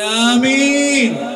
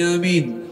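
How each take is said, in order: First: It is said loudest of all. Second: It is said loudly.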